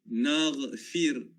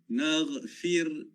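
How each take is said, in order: No difference in how they are said.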